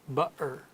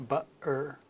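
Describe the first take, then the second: No difference in how they are said.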